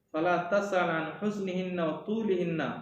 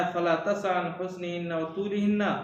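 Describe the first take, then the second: The two takes are said the same way.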